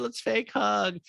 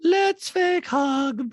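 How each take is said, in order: First: High, quick mock-friendly voice; Kyle. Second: High, loud, very slow detached voice; eerie monotone, every word dragged out; Diana. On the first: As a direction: lightly parody a phony friend. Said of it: "Kyle's like". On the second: Retold or imitated. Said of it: "that's what even Diana says in a talking head".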